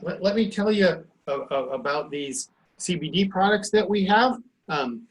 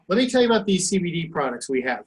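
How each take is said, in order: First: It is halting, with fillers and repeated words. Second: It is fluent and confident, without any fillers. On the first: The seller sounds unsure and unconvincing. The speaker calls it wrong. "if you're stumbling over your words" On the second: The seller sounds confident and persuasive. The speaker calls it right. "And you look them in the eye"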